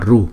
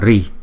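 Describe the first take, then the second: First: The vowel after r sounds like 'u'. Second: The vowel after r sounds like 'i'. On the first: This is the southern Indian reading. "Miền Nam Ấn Độ đọc là Ru" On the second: This is the northern Indian reading. "Miền Bắc Ấn Độ chúng ta đọc là Ri"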